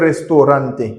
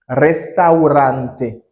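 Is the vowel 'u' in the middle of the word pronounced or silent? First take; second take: silent; pronounced. First: The u vowel after 'resta' is left silent. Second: The u vowel after 'resta' is clearly pronounced. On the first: The speaker calls it wrong. "Pas dire restaurante. Non, pas dire ça, c'est pas bon" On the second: The speaker calls it right. "La lettre U doit être prononcée"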